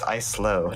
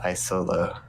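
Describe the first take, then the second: First: The first part has two syllables. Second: The first part has three syllables. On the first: The speaker calls it right. "I think it's islo" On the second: The speaker calls it wrong. "not isolo"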